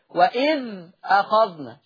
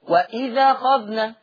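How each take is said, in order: First: A glottal stop is heard before 'akhadhna'. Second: The glottal stop drops; the vowel joins 'idh'. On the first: "بيشيل الهمزة وياخد الحركة يحطها على الساكن اللي قبلها" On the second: "شيل الهمزة، الفتحة حطها على مين؟ على ذا الإذ"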